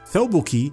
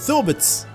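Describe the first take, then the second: First: The final consonant is a plain k sound. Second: The final consonant is a ts sound. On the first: "كاف مكسورة كي" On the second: "أو ثوبتس"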